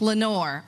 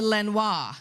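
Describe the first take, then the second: First: The name is said with a plain English ending. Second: The name is said with a French-style ending.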